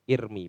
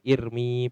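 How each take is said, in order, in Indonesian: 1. Vokal akhirnya pendek. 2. Vokal akhirnya panjang. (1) "irmi pendek" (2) "mboten irmi panjang mboten"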